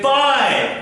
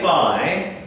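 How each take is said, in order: First: The word is said forcefully, with strong emphasis. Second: The word is said plainly, without extra force. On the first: The speaker calls it right. "you say bye, because it's an exclamation mark just here. You are giving emphasis" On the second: The speaker calls it wrong. "you don't say bye"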